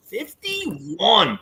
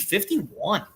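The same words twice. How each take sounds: First: FIFTY-ONE drawn out, falling at the end; confirming. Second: FIFTY-ONE as an unsure question, rising at the end. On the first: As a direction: announce "fifty-one" as settled, voice coming down. Confirms the guessed age. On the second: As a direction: softly ask "fifty-one", voice lifting. Unsure guess at the age. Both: Real, not acted.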